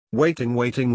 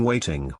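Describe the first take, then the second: First: Said in the usual way. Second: "waiting." dropped much lower, falling away; trailing off. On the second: Acted. Narrator drags out the wait, "waiting." low and trailing. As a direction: let "waiting." sink low and fade out. Bored wait outside the door.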